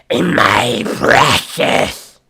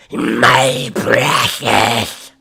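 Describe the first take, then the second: First: Very slow, loud, raspy Gollum croak, cleaner take. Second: Very slow, louder, raspy Gollum croak. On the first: Vocalist retrying Gollum's voice after too much saliva. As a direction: drag out each word like Gollum. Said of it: "I had too much saliva in my mouth". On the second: Vocalist demonstrating Gollum's voice to chat, slow and raspy. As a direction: drag it out like Gollum. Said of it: "oh, the Gollum's voice?". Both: Shown as a demonstration.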